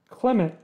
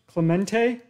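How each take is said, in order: First: The name ends on a consonant, with no final vowel. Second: The name ends with an added final vowel sound. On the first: The speaker calls it wrong. "I didn't even get one" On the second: The speaker calls it right.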